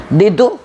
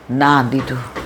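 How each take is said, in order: First: "દીધું?" asked with a sharp upward rise; rising question. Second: "ના દીધું" settled with a low falling close; falling answer. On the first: Speaker quizzing her listeners, "દીધું?" rising as a question. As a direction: ask "દીધું?" like a real question, pitch climbing. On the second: Answering her own question, "ના દીધું" falling flat and final. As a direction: answer "ના દીધું" firmly, dropping at the end. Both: Shown as a demonstration.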